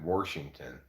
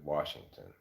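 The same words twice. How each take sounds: First: The word has a regional, old-fashioned pronunciation. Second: The word has the standard, everyday pronunciation. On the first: This is how an older relative said it. "She also said Washington" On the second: This is the usual way to say it. "instead of Washington"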